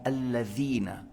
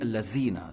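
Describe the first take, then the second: First: The middle consonant is a voiced 'th' sound. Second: The middle consonant is a 'z' sound. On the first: The speaker calls it right. "la lettre val en disant alladhina" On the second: The speaker calls it wrong. "si tu dis allazina, ça n'a pas de sens"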